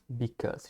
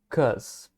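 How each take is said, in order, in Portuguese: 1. As duas sílabas são ditas, começando com 'be'. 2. A primeira sílaba é omitida, restando apenas 'cause'. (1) "Geralmente a gente não fala inteiro because" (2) "A forma contraída dele é assim"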